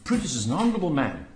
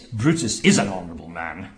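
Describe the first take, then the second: First: It is said sincerely, with genuine praise. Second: It is said sarcastically, with open contempt. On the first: Brutus is truly honorable. "He starts off by saying" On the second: Brutus is not honorable at all. "the very tone takes him from being on a pinnacle to throwing him in the dustbin"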